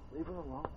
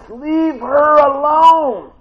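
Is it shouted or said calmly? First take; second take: calmly; shouted. First: It is said quietly and calmly. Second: It is shouted loudly and angrily.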